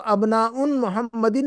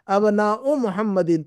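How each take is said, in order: First: The first word ends with an added n sound. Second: The first word ends in a vowel, without n. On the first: The speaker calls it wrong. "नहीं कहेंगे" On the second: The speaker calls it right. "यहाँ पर एक ही पेश रहेगा"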